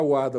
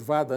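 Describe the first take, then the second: First: The word begins with a W sound. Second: The word begins with a V sound. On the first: "Cada um pronuncia de um jeito" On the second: "Cada um pronuncia de um jeito"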